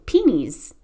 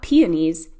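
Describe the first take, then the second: First: It is said with an Indiana accent. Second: It is said with a standard accent. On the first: This is how locals say it. "they hear folks from Indiana say" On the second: This is how outsiders say it.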